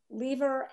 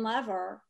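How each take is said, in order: First: "Lever" as LEE-ver, drawn out; long-ee pronunciation. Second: "lever" as LEV-er, slowly; short-e pronunciation. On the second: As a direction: slowly say "lever" to rhyme with never. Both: Shown as a demonstration. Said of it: "Is it pronounced lever or lever?".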